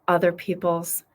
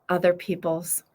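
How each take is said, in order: No difference in how they are said.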